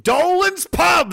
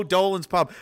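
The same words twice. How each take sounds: First: High, drawn-out shout; excited shout. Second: Said in the usual way. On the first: Real, not acted. Recognizing the pub someone named, excited shout. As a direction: bellow it slowly and high.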